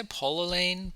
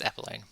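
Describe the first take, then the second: First: Apolline with a round "poll" in it; alternative pronunciation. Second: Said in the usual way. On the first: Shown as a demonstration. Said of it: "I want to say Apolline". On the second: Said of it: "I think it's Apolline".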